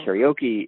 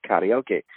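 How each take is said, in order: First: "karaoke" said as carry-OH-key; American-style "karaoke", ending in key; anglicized pronunciation. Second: "karaoke" said as kah-rah-oh-keh, slowly; even-syllabled Japanese "karaoke", ending in keh; Japanese pronunciation. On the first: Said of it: "So it's not karaoke". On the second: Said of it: "say things the right way in Japanese". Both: Shown as a demonstration.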